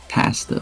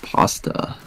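First: The word is said with a Canadian vowel. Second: The word is said without the Canadian vowel.

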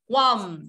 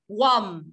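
Both takes have the same delivery.

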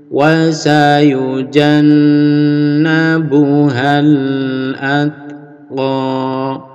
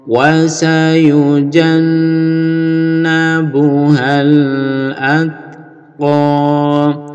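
No difference in how they are said.

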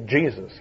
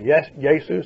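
First: The name is said in the usual English form. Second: The name is said in a non-English, original form. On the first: This is the usual English pronunciation. "we say Jesus" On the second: This keeps the original biblical pronunciation. "We don't say"

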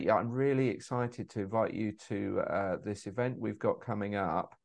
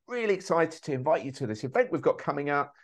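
First: It is said flatly, with low energy. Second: It is said with lively, high energy.

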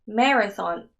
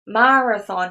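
First: The second vowel is a reduced 'eh' sound. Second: The second vowel is a full 'ah' sound. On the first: The speaker calls it right. "에 발음 나야 됩니다" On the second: The speaker calls it wrong. "마라고 발음 나면 안 되고요"

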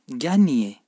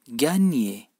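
The two takes are said the same way.

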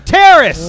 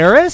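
First: It is yelled loudly as an alarm. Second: It is asked with a questioning rise.

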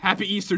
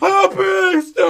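First: It is said at normal volume. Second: It is shouted loudly.

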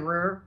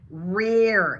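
First: The final R sound is dropped. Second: The final R sound is clearly pronounced. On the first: The speaker calls it wrong. "Instead of rear" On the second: The speaker calls it right. "it actually pronounce it"

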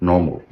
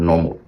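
The two takes are said the same way.

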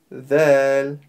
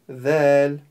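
Both takes have the same delivery.

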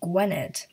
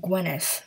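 First: The word ends with a plain d sound. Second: The word ends with a soft th sound. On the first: The speaker calls it wrong. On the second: The speaker calls it right.

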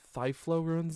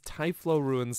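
First: The name begins with a 'th' sound. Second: The name begins with a plain 't' sound. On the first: The speaker calls it wrong. "Thyflo just doesn't sound right to me" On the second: The speaker calls it right. "sounds better"

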